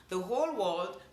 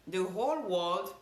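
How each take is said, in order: Both takes have the same delivery.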